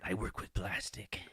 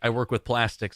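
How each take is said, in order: First: It is said in a Joker-like psychotic voice. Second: It is said in a normal voice.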